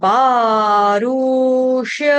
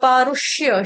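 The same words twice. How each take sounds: First: The second-syllable vowel is drawn out long. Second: The second-syllable vowel is short. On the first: The speaker calls it wrong. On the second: The speaker calls it right.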